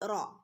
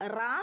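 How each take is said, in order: First: The r is heavy with a rounded o-like vowel. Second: The r is light with an open a vowel. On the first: The speaker calls it right. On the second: The speaker calls it wrong. "റാ എന്ന് പറയരുത്"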